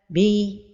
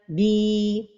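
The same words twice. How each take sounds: First: The vowel is not held for its full length. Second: The vowel is held out for its full length. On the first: The speaker calls it wrong. "ne pas donner le temps exact de la prolongation" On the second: The speaker calls it right. "la prononciation correcte"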